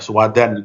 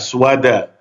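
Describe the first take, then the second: First: The word ends with an added n sound. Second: The word ends on a vowel, without n. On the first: The speaker calls it wrong. "Bukan aswadan ini ya" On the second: The speaker calls it right.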